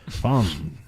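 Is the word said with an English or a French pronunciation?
French. The word is pronounced the French way. The speaker calls it right. "I try to say it with a little French"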